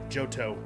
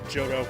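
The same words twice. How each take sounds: First: The T sound is crisply and clearly pronounced. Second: The T sound is softened, not crisply pronounced. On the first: The speaker calls it right. "You have to enunciate the T's" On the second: The speaker calls it wrong. "that doesn't sound right"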